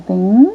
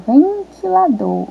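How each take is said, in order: First: "ventilador" sílaba por sílaba, com pausas; separação silábica. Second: Said in the usual way. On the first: Shown as a demonstration. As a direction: split "ventilador" into ven, ti, la, dor. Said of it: "qual que é a sílaba que tá faltando". ("ventilador" bem devagar, em sílabas separadas) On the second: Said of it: "Vamos de novo".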